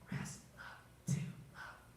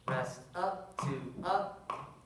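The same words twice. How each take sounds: First: It is whispered. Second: It is said aloud, not whispered.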